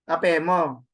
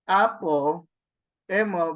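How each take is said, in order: First: The words run together, dropping the first vowel. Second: The two words are said separately with both vowels. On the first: The speaker calls it right. "apo emo becomes ap apemo" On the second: The speaker calls it wrong. "So you do not read it as apo emo"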